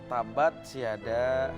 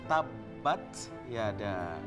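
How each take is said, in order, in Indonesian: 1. Bunyi b-nya pendek, tidak dirangkap. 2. Bunyi b-nya ditahan dan dirangkap. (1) "tadi Kang Pelongo baca" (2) "harusnya tabat siada. Tabat justru ada tasydid"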